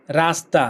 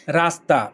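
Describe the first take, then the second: No difference in how they are said.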